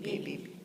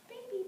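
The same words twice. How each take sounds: First: It is low, with buzzing chest vibration. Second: It is high and light, without chest buzz. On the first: "my chest voice" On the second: "my head voice"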